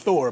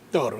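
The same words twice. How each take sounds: First: The name is said with the usual English sound. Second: The name is said with the Norwegian sound. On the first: The speaker calls it wrong. "it's Thor" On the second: The speaker calls it right. "the pronunciation from Norway is Thor"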